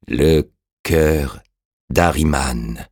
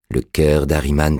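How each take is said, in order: First: Halting echo with a long pause; revived dead man. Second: Said in the usual way. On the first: A narrator's reading. The revived man echoes Orastès, slow and halting. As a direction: repeat it as memory slowly returns.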